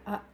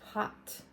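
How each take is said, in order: First: It is said Italian-style, dropping the h. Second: It starts with a clear h sound.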